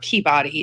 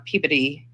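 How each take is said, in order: First: It is said in a non-local way. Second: It is said the way locals say it. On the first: The speaker calls it wrong. "I know it's not Peabody" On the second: The speaker calls it right. "Peabody is how they pronounce it"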